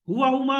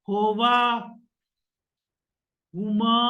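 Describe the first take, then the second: First: Recited smoothly in one breath without pausing. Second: Recited haltingly, with hesitant pauses between words. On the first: The speaker knows the list fluently. The speaker calls it right. "एक सांस में" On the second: The speaker has not learned the list by heart. The speaker calls it wrong. "ये ना हो"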